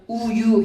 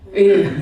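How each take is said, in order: First: The first vowel is clearly rounded. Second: The first vowel is unrounded and vague. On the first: The speaker calls it right. "모음 발음 명확하려면 우유 해야 돼요" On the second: The speaker calls it wrong. "우유를 우유라고 하신 적 없으실걸요? 뭐라고 하셨어요? 의유"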